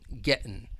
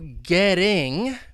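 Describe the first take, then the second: First: The T is a glottal stop, ending dropped. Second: The T is a soft flap like D. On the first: "when they drop the G, it's going to change that T sound... it's going to now become a glottal T" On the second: "getting would be with the American accent a flap T. It's going to sound like a soft D"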